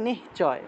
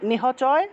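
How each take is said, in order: First: The h sound merges into the preceding syllable. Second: The h is fully sounded as its own syllable. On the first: The letter has a hasanta mark. "আর থাকলে নিশ্চয়" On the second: The letter has no hasanta mark. "হসন্ত না থাকলে নিহচয়"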